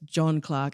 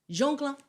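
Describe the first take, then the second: First: The first name sounds like English John. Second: The first name sounds like French Jean. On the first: The speaker calls it right. "as you said" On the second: The speaker calls it wrong. "you pronounced it Jean. So he wasn't French"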